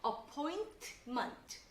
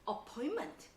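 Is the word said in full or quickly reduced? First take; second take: full; reduced. First: The word is said slowly with every sound. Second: The word is said fast with sounds dropped. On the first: "따라 읽어볼게요" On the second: "빨리 발음하다 보니까 ... 이렇게 됩니다"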